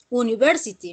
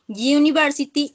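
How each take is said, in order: First: The word starts with a plain vowel sound. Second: The word starts with a y sound. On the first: The speaker calls it wrong. "no se pronuncia university, no" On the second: The speaker calls it right. "ya sería consonante en sonido"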